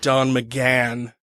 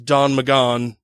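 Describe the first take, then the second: First: The surname's vowel sounds like in 'can'. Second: The surname's vowel sounds like in 'gone'. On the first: It is how people actually say the name. The speaker calls it right. "everybody actually pronounces it Don McGann" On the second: It follows the spelling of the name. The speaker calls it wrong. "I pronounced it as Don McGon"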